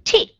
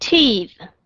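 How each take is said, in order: First: Teeth said with the first of two contrasting sounds; the first take of teeth. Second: Teeth said with the contrasting second sound; the second take of teeth. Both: Shown as a demonstration. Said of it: "có nghe được cái sự khác biệt không".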